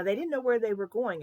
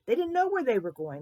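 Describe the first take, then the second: First: Louder, lifted "didn't know where"; emphatic telling. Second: High, loud stress on "know"; stronger emphasis. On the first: Storyteller explains the journey to children, emphatic "where". Teller stresses the travellers' ignorance. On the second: Storyteller repeats point to children, emphatic high "know". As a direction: punch "didn't know" for wonder. Teller repeats it with more force. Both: A narrator's reading.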